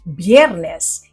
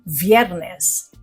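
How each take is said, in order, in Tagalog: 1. Nagsisimula ang salita sa tunog na B. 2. Nagsisimula ang salita sa tunog na V. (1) "dahil pinopronounce ang letter V na B sa Spanish, ito ay Biyernes" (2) "hindi Viernes"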